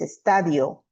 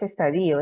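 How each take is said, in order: First: "estadio" said es-TA-dio, the i gliding into o; correct pronunciation. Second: "estadio" said es-ta-DÍ-o, the i and o split apart; wrong stress. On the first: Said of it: "es estadio". ("estadio" bien pronunciado, es-TA-dio) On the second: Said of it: "no es estadio". ("estadio" mal acentuado, es-ta-DÍ-o) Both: Shown as a demonstration.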